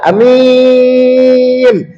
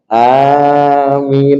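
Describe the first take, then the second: First: The first vowel is short. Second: The first vowel is held long. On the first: "ai pendek, mimnya panjang" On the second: "bacaan a panjang, min panjang. Amin itu yang masyhur"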